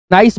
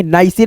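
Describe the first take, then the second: First: नाइस said as one syllable, silent e, nice; correct reading. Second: नाइसे said with a sounded final e, nigh-seh; wrong reading demo. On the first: Teacher giving students the right reading: plain nice. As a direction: clip नाइस short with no final vowel. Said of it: "तो यहाँ पे हम क्या पढ़ेंगे?". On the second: Teacher showing students the wrong way: nai-se. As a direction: read नाइसे as two syllables, nai-se. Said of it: "नाइसे नहीं पढ़ेंगे". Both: Shown as a demonstration.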